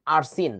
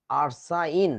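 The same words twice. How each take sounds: First: আরসিন said ar-sin, short i; আরসিন with a plain 'in' ending; saying Arsin. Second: আরসাইন said ar-sine, with the ai glide; আরসাইন with a clear 'ine' ending; saying Arsine. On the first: (আরসিন উচ্চারণ, শেষে ইন) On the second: (আরসাইন উচ্চারণ, শেষে আইন) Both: Shown as a demonstration. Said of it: "উচ্চারণটা আমাদের কি হবে".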